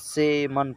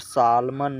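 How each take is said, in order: First: The L sound is left out. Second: The L sound is pronounced. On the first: The speaker calls it right. "सेमन पढ़ा जाएगा" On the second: The speaker calls it wrong. "यहाँ पर सालमन नहीं पढ़ा जाएगा"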